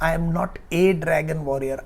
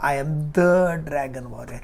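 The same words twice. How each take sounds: First: A said with weight as the ordinary case; stress on a. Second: The stressed as the one and only. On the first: Panda contrasts a dragon warrior with the one, stressing "a". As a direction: lean on "a" to mean just any one. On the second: Panda declares himself the true dragon warrior, stressing "the". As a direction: lean on "the" to claim the title. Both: Shown as a demonstration.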